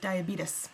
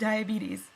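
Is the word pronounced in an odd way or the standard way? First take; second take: odd; standard. First: The word is pronounced in an odd, imitated way. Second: The word is pronounced in the standard way. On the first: "as Wilford Brimley says" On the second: "He mispronounces diabetes"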